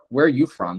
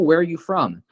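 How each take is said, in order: First: It sounds annoyed and mocking. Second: It sounds friendly and genuinely interested. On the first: The asker is mocking the person's accent. "not because they're like, "Ugh" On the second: The asker is genuinely interested in the person. "they ask in a curious, genuinely interested i- way"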